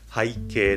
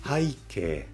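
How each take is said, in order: First: It has the standard dictionary pitch accent. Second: It has the newer, widely used pitch accent. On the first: This is the officially listed pronunciation. "これ背景と言います。" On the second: Most people actually say it this way. "背景っていう人の方が圧倒的に多いです。"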